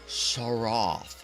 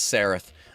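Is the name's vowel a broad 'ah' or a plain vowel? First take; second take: broad ah; plain vowel. First: The name is said with a broad British 'ah'. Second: The name is said without the broad 'ah'. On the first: The speaker calls it wrong. "I always want to add the British ah to it" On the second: The speaker calls it right. "I think it's Sareth"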